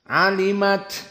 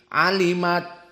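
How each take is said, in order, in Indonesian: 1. Huruf t di akhir dilepas dengan hembusan napas yang terdengar. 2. Huruf t di akhir ditelan tanpa dilepas. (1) "Keluar taknya" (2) "jangan ditelan seperti alimat ditelan"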